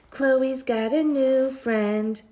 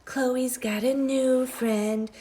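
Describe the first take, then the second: First: Taunting sing-song. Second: Taunting whisper. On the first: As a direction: rub it in like a playground taunt. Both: A narrator's reading. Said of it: "Andrew whispered".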